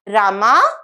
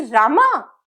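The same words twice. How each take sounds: First: The name is called out softly. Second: The name is said with shock.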